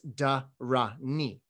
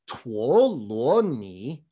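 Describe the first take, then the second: First: It begins with a 'da' sound. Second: It begins with a 'tuo' sound. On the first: This is the medieval Chinese reading. "So if you know the medieval pronunciation of these three characters, it's dhāraṇī" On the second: This is the modern Mandarin reading. "In modern Mandarin, these three characters are pronounced tuo luo ni"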